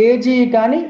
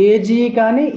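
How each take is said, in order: The two takes are said the same way.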